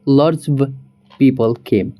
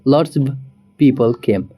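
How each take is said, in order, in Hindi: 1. 'of' शब्द छोटा होकर बोला जाता है। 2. 'of' शब्द छोटा होकर बोला जाता है।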